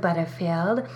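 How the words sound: The name is said in a sultry, seductive tone. The speaker feels especially sexy. "if I'm feeling especially sexy"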